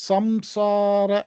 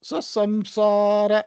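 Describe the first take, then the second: First: The nasal before 's' sounds like 'm'. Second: The nasal before 's' sounds like 'm'.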